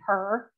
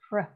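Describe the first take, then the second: First: A vowel sound is inserted between p and r. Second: The p and r blend with no vowel. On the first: The speaker calls it wrong. "We as teachers oftentimes will model the incorrect pronunciation. If we're saying per" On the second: The speaker calls it right. "It's pr"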